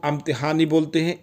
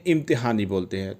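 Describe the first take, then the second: First: इम्तिहान opened with an 'a', amtihan; 'a' variant. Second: इम्तिहान opened with an 'i', imtihan; 'i' variant. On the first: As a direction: start इम्तिहान on a short 'uh' vowel. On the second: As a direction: start इम्तिहान on a short 'ih' vowel. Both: Shown as a demonstration. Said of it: "थोड़ा सा आ और ई का फ़र्क आता है".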